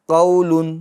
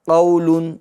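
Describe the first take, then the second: Both takes have the same delivery.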